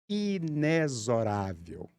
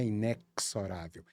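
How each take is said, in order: First: The x is said as a z sound. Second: The x is not said as a z sound. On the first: The speaker calls it right. "Um som de Z" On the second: The speaker calls it wrong. "Não é inexorável"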